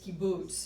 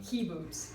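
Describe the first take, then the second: First: The stress is on the last syllable. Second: The stress is on the first syllable. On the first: The speaker calls it right. "the accent is kibbutz ... It's on the last syllable" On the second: The speaker calls it wrong. "I'm saying kibbutz"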